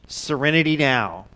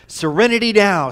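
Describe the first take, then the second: First: It is spoken at a normal, calm volume. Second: It is screamed loudly at full voice. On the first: "he would say the words" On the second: "he would more scream it out loud at the top of his lungs"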